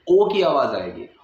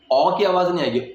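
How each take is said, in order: First: ओ said as a rounded o; ओ with a rounded o vowel; o sound. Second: ओ said as a full open o; ओ with a clear long o vowel; full o sound. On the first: (ओ की आवाज़) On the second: (पूरी ओ की आवाज़) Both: Shown as a demonstration.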